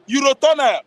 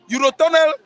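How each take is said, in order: First: Said in the usual way. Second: Eurotunnel said again, higher, spelled out syllable by syllable; clarified repeat. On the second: Shown as a demonstration. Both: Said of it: "I didn't understand".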